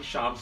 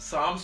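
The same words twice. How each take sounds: First: The word begins with an sh sound. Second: The word begins with a plain s sound. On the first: The speaker calls it wrong. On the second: The speaker calls it right.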